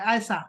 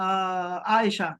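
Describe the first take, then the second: First: The middle consonant is an 's' sound. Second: The middle consonant is a 'sh' sound. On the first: The speaker calls it wrong. "तो ये सीन आयसा कहते हैं" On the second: The speaker calls it right. "ये जो शीन है ना"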